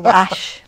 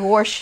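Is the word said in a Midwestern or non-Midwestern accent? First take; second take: non-Midwestern; Midwestern. First: It is said in a non-Midwestern accent. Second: It is said in a Midwestern accent. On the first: "I don't say wash like you all do" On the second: "you'll have to forgive my Midwest accent. I say wash"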